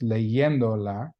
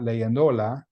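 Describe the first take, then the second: First: The stress is on the third-to-last syllable. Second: The stress is on the second-to-last syllable. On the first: The speaker calls it right. "it's still pronounced leyendola" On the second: The speaker calls it wrong. "so it should have the stress on the second to the last syllable"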